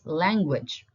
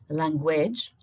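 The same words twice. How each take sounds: First: The stress is on the first syllable. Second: The stress is on the second syllable. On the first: The speaker calls it right. "It's language. we stress the letter A" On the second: The speaker calls it wrong. "it's not language"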